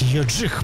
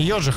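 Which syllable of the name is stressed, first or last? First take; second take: last; first. First: The stress is on the last syllable. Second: The stress is on the first syllable. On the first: The speaker calls it right. "ударение-то, как правило. На последний слог у французов" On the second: The speaker calls it wrong. "не ёджих"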